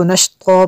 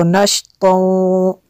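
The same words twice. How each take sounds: First: "नश्तो" ending on a long open vowel; pausal ending. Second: "नश्तो" gliding into a held nasal w; continuing ending. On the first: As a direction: stop on "नश्तो", holding a plain final vowel without nasal. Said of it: "वक्फ करेंगे तो नश्तो पढ़ेंगे". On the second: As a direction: draw out the end of "नश्तो" as a humming -ow, ready to join on. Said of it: "अगर वक्फ नहीं करेंगे". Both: Shown as a demonstration.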